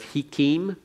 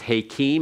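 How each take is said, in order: First: The first vowel is a short 'i'. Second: The first vowel is a lengthened 'a'. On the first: The speaker calls it wrong. "instead of hikim" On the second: The speaker calls it right. "You lengthen the prefix vowel before the tone so that it becomes hakim"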